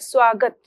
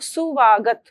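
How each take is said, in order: First: The word begins with a tight sw cluster. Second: An extra u vowel splits the s and v. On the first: The speaker calls it right. "स्वागत शब्द" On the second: The speaker calls it wrong. "सुवागत बोलना एक आम अशुद्ध उच्चारण है"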